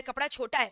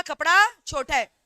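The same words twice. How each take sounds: First: Said in the usual way. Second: "कपड़ा छोटा है" said loudly and slowly, with the weight on "कपड़ा"; loud emphatic retort. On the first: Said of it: "दुकानदार को क्या बोला?". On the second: Retold or imitated. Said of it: "दुकानदार गुस्सा में बोला". ("कपड़ा छोटा है" ज़ोर से, धीरे, "कपड़ा" पर ज़ोर)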